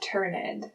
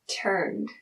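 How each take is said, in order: First: The ending adds an extra syllable. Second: The ending is a single D sound. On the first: The speaker calls it wrong. "not a T or a D. Okay, so we know it's not turned" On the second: The speaker calls it right. "I'm going to go with a D sound at the end"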